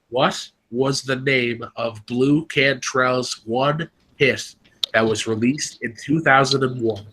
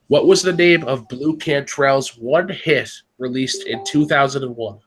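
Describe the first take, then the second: First: It is read a little more slowly. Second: It is read at normal speed.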